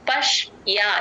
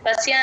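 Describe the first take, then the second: First: The 'ya' after 'sh' is clearly heard. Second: The 'ya' after 'sh' is weak and faint. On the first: The speaker calls it right. "యా వినిపించాలి" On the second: The speaker calls it wrong. "తేల్చి చెప్పేస్తారు, అలా చెప్పకూడదు"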